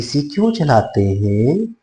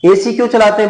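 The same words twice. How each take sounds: First: The question is asked slowly, with a pause after. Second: The question is fired off quickly among others. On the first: The child is given time to process. The speaker calls it right. "Commands को बिल्कुल slowly आप बोले" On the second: The child is bombarded with commands. The speaker calls it wrong. "ऐसे नहीं होना चाहिए"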